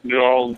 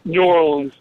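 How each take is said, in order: First: It is said in a Southern accent. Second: It is said in a plain accent.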